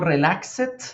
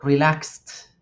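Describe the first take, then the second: First: The ending is said as an extra syllable. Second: The ending is a single t sound. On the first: The speaker calls it wrong. "Yo no digo relaxed" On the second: The speaker calls it right. "digo relaxed"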